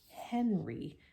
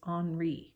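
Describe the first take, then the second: First: The name is said with English pronunciation. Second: The name is said with French pronunciation. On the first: The speaker calls it wrong. "that's how we would say it in English" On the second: The speaker calls it right. "to pronounce it the way he was named, he was from France"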